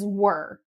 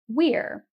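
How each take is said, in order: First: The vowel sounds like in 'her'. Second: The vowel sounds like in 'here'.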